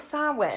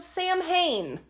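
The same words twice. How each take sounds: First: The word is pronounced unlike its spelling. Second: The word is pronounced letter by letter as spelled. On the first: The speaker calls it right. "But that's not correct. It is Samhain" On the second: The speaker calls it wrong. "It is spelled Samhain. ... some people do pronounce it that way"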